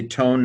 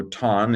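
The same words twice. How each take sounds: First: TONE with a long O; long-o pronunciation. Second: TON with a short, open O; short-o pronunciation. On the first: Teacher showing students their preferred reading, long-o TONE. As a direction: say TONE, rhyming with "bone". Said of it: "I would say tone now". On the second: Teacher showing students another way, open-vowel TON. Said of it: "another way to say it". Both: Shown as a demonstration.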